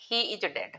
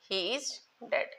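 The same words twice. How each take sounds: First: Said in the usual way. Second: Very slow, each word set apart; slow dictation. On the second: Shown as a demonstration. Teacher repeating an example for pupils, slow dictation. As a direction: stretch IS and pause before DEAD.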